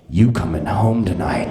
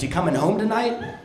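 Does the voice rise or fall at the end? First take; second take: fall; rise. First: It ends with a fall, like a statement. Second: It ends with a rise, like a question.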